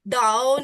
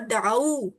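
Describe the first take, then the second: First: The word ends with an 'oh' vowel. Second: The word ends with a long 'oo' vowel. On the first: The speaker calls it wrong. "दाओ नहीं।" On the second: The speaker calls it right. "देखें ये ये प्रोनाउंसिएशन है।"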